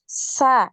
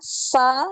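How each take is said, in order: First: It is said with the tongue back low, sounding light. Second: It is said with the tongue back raised, sounding heavy. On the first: The speaker calls it right. "ya biasa" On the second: The speaker calls it wrong. "ini naik ya tadi ya"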